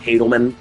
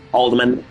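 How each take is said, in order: First: The L sound comes after the D sound. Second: The L sound comes before the D sound. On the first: The speaker calls it wrong. "Not Hadelman" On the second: The speaker calls it right. "it's actually pronounced Haldeman"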